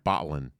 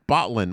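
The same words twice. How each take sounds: First: The L sound is swallowed in the throat. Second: The L sound is pronounced clearly.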